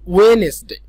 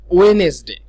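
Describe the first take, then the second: The two takes are said the same way.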